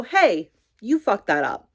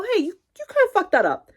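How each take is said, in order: First: Bluntly calling out a slip-up; blunt callout. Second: High, hesitant, softened correction; gentle correction. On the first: Coworker flagging the newcomer's mistake, blunt. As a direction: tell them straight they messed up. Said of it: "Obviously not like that". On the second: Coworker kindly pointing out a mistake, gentle. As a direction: break it gently in a much higher voice. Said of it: "Obviously not like that, but they go". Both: Acted.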